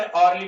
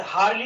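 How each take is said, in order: First: अर्ली starting straight on the vowel; अर्ली, vowel onset, no h; silent h. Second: हार्ली with a sounded h at the start; हार्ली, h pronounced; wrong h-sound. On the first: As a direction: say अर्ली with no h sound at all. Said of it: "अर्ली पढ़ा जाएगा". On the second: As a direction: say हार्ली with a breathy h before the vowel. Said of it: "हार्ली नहीं पढ़ा". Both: Shown as a demonstration.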